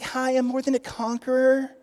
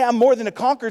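First: Lightly sweet, not meaning it; sweet and timid. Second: Firm, loud, stress on "more"; confident claim with "more" punched; bold declaration. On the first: Retold or imitated. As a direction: say it like a meek greeting card. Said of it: "those aren't just sweet terms". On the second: Shown as a demonstration. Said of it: "When you say".

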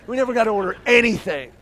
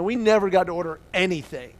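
First: Loud, raised, insistent delivery; higher, forceful exclamation; emphatic repeat. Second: Said in the usual way. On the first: Real, not acted. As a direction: hammer it home to the crowd.

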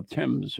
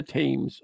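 First: "Thames" said as "temz", with a short E; British pronunciation. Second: "Thames" said as "taymz", with a long A; spelling pronunciation. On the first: Reader correcting the river's name, "Thames" with a short E. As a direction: rhyme "Thames" with "gems". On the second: Reader unsure of the river's name, "Thames" with a long A. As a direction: rhyme "Thames" with "names". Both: Shown as a demonstration. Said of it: "or how do you say it?".

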